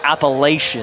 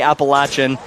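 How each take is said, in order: First: The word is said the way outsiders say it. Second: The word is said the way locals say it. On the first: The speaker calls it wrong. "correcting people who say words like Appalachian. Ugh, makes me shudder just to say it" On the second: The speaker calls it right. "He corrects everyone, tells them to w- say Appalachian"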